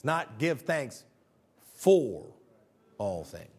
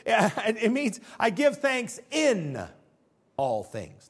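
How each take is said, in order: First: Slow, "for" set apart by pauses before "all things"; stress on for. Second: Slow with weight on "in", give thanks "in" all things; stress on in. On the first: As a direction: hold a beat around "for" to contrast it. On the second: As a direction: lean on "in" as the key word. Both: Shown as a demonstration.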